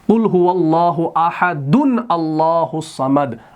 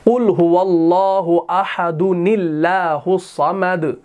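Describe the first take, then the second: First: Ahadun ends fully, then allahus starts separately. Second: The n carries straight over into nillahus. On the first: The speaker calls it wrong. "आप ऐसे नहीं पढ़ सकते" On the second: The speaker calls it right. "ऐसे पढ़ सकते हैं"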